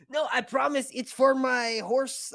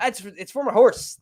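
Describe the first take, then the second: First: High, slow, put-on Spanish accent; mock Spanish accent. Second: Much higher, playful put-on pleading; high-pitched mock excuse. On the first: Customer assuring the pet store about horse medicine, mock Spanish accent. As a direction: plead innocently in a hammed-up Spanish accent. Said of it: "I did a Spanish accent". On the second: Customer insisting to the pet store, high mock pleading.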